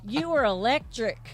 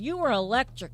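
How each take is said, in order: First: It has a heavy Southern drawl. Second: It has a milder Southern drawl. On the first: The speaker calls it wrong. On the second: The speaker calls it right.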